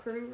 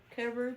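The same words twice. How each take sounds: First: "Carew" squeezed into "Croo". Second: "Carew" opened out into "CARE-oo". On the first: Reviewer guessing at the author's name, "Carew" as one-syllable "Croo". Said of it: "I don't know if it's pronounced like". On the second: Reviewer offering another reading of the author's name, "Carew" as two-syllable "CARE-oo". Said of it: "pronounced like Carew or Carew". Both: Shown as a demonstration.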